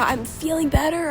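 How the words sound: The voice is weak, strained and sick. "I was so sick whenever I said that that I could barely even talk"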